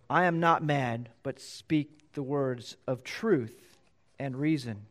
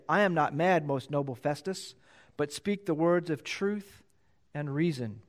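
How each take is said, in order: First: Slow, gentle, courteous reply; Paul replies very nicely to Festus; polite and gentle. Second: Said in the usual way. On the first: Acted. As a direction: answer the ruler kindly and slowly. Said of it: "he addresses him very nicely". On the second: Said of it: "very nicely".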